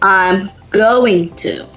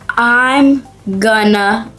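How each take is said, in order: First: Going to is said in full, word by word. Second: Going to is reduced to one short gonna. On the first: This is the clear full form. "instead of I'm going to" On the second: This is the natural everyday spoken form. "In real life, people say, I'm gonna"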